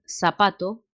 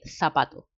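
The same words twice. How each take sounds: First: The first sound is a hissing 's'. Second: The first sound is a lisping 'th'.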